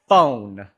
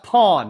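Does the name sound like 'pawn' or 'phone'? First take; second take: phone; pawn. First: The name is said with an 'oh' vowel, like 'phone'. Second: The name is said with an 'aw' vowel, like 'pawn'. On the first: The speaker calls it wrong. "it is not pronounced phone" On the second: The speaker calls it right. "It's pronounced pawn"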